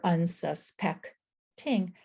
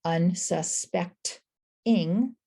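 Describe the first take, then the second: First: "unsuspecting" slowly as un, sus, peck, ting; syllable by syllable. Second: "unsuspecting" slowly as un, su, spect, ing; syllable by syllable. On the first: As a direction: break "unsuspecting" so it ends in "ting". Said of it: "Either way is just fine". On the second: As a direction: break "unsuspecting" so it ends in a lone "ing". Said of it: "how you're dividing the word". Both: Shown as a demonstration.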